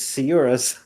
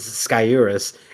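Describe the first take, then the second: First: The name begins with a soft S sound. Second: The name begins with a hard K sound. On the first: The speaker calls it right. "So it's actually" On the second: The speaker calls it wrong. "doesn't have the hard C, so I'm going to stop saying that"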